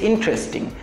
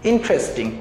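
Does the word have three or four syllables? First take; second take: three; three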